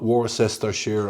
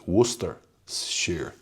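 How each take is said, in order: First: It is said with an American-style pronunciation. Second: It is said with the English pronunciation. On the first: The speaker calls it wrong. "not Worcestershire" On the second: The speaker calls it right. "which is the English pronunciation"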